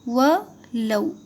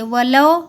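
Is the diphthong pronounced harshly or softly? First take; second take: softly; harshly. First: The diphthong is pronounced softly and gently. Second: The diphthong is pronounced harshly, not softened. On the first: The speaker calls it right. "इसे नरम पढ़िए" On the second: The speaker calls it wrong. "वलौ मत बोलिए"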